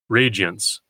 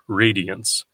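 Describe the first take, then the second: First: The word is said with two syllables. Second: The word is said with three syllables. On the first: The word fits the meter as a two-syllable word. "eliding the IA into a Y sound" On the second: The word keeps its full syllable count. "this three-syllable word"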